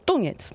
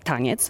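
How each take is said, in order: First: The first vowel is a u. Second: The first vowel is an a. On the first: This is how the local dialect says it. "tylko tuniec" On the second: This is how standard Polish says it. "nie mówimy taniec"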